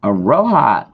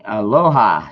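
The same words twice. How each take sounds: First: Aloha in a put-on accent, L turned toward R; loud, playful accented "Aloha". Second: Said in the usual way. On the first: Streamer greeting a viewer, putting on an accent. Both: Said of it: "did that with that accent".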